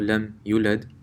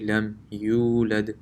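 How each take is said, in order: First: The vowel after the y is short. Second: The vowel after the y is long. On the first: The speaker calls it wrong. "this is the mistake" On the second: The speaker calls it right. "it's actually lam yulad. There's a waw here"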